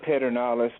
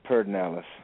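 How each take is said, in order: First: The name is pronounced just as it is spelled. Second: The name is pronounced the local Texan way. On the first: "spelled Pedernales" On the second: "in Texas we pronounce it Pedernales"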